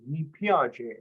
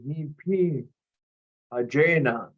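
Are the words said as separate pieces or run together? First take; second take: together; separate. First: The parts are run together into one word. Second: The parts are said separately, not run together.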